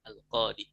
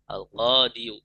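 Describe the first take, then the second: First: The word ends on a plain long 'i'. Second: The word ends with an added 'yu' syllable. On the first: "lebih gampangnya al-qadi" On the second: "al-qadiyu itu kan sulit dibaca"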